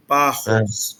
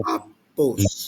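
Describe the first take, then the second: First: "parros", the middle p's turned into R's; misreading with R's. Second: "papos" with a clear p in the middle; corrected pronunciation. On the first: Retold or imitated. Teacher quoting the student's misread word, R sound for p's. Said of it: "você leu como se fossem R's". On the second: Shown as a demonstration. Teacher correcting the student's reading, clear p sounds. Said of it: "Mas com outros dois pis".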